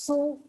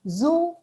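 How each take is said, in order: First: The word begins with an s sound. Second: The word begins with a z sound. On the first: The speaker calls it wrong. "we tend to pronounce it as so" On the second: The speaker calls it right. "It's zoo"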